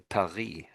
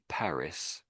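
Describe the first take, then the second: First: The word is said with a French pronunciation. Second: The word is said with an English pronunciation. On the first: "in France they say Paris" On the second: "in English we say Paris"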